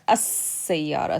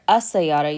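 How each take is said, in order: First: The s sound is held and doubled. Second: The s sound is short and single. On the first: The speaker calls it right. "you hear السيارة. So that sin has a shadda on it" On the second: The speaker calls it wrong. "So you don't hear السيارة"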